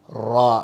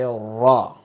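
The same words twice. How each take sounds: First: The vowel after the consonant is an open A. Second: The vowel after the consonant is a rounded O. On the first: The speaker calls it wrong. "Don't say ra. Don't put A sound after the ra" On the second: The speaker calls it right. "like the O sound"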